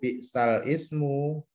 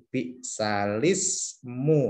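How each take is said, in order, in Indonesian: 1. Hamzah memisahkan 'bi'sal' dan 'ismu'. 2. Vokal langsung menyambung ke 'l' tanpa henti. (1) "ini kalau kita bacanya seperti itu, bi'sal ismu, salah" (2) "maka kasrohnya ini dipindah ke lamnya. Sebagaimana ini bi'salismu"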